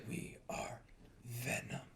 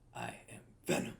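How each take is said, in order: First: It is said slowly with clear enunciation. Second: It is rushed and not clearly enunciated.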